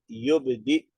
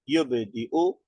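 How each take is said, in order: First: The word ends in a clipped stop without vowel. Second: The word ends with a final short u vowel.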